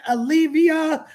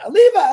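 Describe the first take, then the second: First: "Olivia" said as o-LIV-ee-a, with the extra i; name read wrongly as "Olivia". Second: "Oliva" said as o-LEE-va, without the extra i, loud; corrected name. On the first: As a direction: slip into saying "Olivia". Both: Shown as a demonstration. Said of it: "I said it wrong again".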